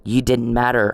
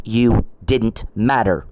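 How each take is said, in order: First: Said in the usual way. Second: Slow, each word weighed: "You didn't matter"; slow emphatic put-down. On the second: Real, not acted. To Mister Perry, a slow emphatic dismissal.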